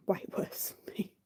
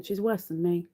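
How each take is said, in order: First: Soft whispered aside; whispered tease. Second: Said in the usual way. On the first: Real, not acted. Confiding Beanie sings worse, whispered tease. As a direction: whisper it like a secret. Teasing partner's singing.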